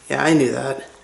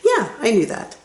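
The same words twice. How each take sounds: First: The voice is flat and sounds dismissive. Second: The voice is raised and sounds friendly. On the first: The listener should have known this already. The speaker calls it wrong. "Instead of" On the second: The speaker already knew but is friendly about it. The speaker calls it right. "It sounds polite when you raise your voice"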